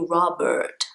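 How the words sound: The middle R is a clear American R. The speaker calls it right. "If you're speaking with an American accent, not a problem at all. Then you would say"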